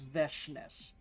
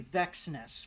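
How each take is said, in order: First: The middle consonant sounds like 'sh'. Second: The middle consonant sounds like 'ks'. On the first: This is how the character says her name. The speaker calls it right. "but no, it's Veshness" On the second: This is the guess from reading the name. The speaker calls it wrong. "I thought it would be Vexness from reading the name"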